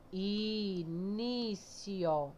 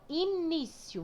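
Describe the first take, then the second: First: INÍCIO very slow and softer, syllable by syllable; drawn-out teacher's split of INÍCIO; separated syllables. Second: Said in the usual way. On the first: Shown as a demonstration. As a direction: stretch each syllable of Início right out. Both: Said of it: "Vamos separar início".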